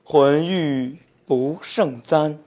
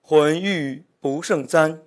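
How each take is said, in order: First: The line is read more slowly. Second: The line is read fast.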